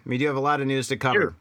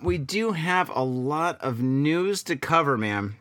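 First: Said in the usual way. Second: Slow, stretched-out announcement; leisurely, elongated lead-in to the news; drawn-out segue. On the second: Real, not acted. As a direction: draw the words out as you change topic. Drawn-out segue, then repeated quickly.

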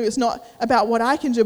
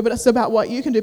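First: "I" stressed against "you". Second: "you" stressed against "I". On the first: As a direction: lean on the word "I". Contrasts I with you. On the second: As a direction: lean on the word "you". Contrasts you with I. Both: Retold or imitated.

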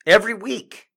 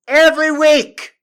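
First: Mock exasperated. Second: High, loud outburst on every; exasperated yell. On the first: Comic rant opener. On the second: Acted. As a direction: shout it out fed up. Comic rant, louder repeat.

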